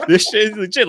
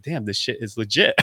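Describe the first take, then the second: First: Higher and louder, laughing through it; giddy laughing echo of the quote; laughing repeat. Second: Said in the usual way. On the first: Retold or imitated. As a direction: repeat it while cracking up.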